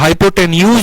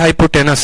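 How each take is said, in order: First: The word ends with a 'nyooz' sound. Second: The word ends with a plain 'nus' sound. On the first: This is how the word is spelled. "हाइपोटेन्यूज होता है" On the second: This is how the word is actually read. "लेकिन पढ़ते हाइपोटेनस है"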